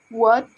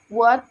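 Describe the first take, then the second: The two takes are said the same way.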